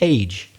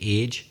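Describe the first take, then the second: First: The vowel has a standard British quality. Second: The vowel has a Northern Irish quality. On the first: "according to the Oxford English Dictionary, it would be something like age" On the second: "in Northern Ireland we pronounce it a particular way as well. We say age"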